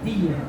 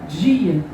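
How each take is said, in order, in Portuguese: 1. O d é um som de d simples e forte. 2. O d é suavizado num som de dj. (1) "onde eles dizem D mesmo" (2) "Meu D africano"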